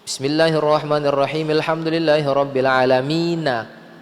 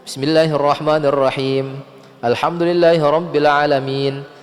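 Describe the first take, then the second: First: Verses run together with the final vowel pronounced. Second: A clear pause separates the verses without linking. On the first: "kalau mau kita sambung" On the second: "Ada jeda di situ kalau kita mau wakof"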